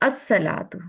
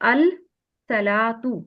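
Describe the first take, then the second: First: The 'l' is merged into a doubled 's'. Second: The 'l' is pronounced separately before the 's'. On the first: The speaker calls it right. "ये अल पे सुकून नहीं होगा, ये स्वाद के साथ पढ़े" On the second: The speaker calls it wrong. "मैंने इस तरह पढ़ा ना"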